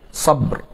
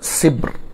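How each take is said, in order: First: The first vowel is an a sound. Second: The first vowel is an i sound. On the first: "bi sukunil ba' ma'a fathi sad" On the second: "wa kasriha"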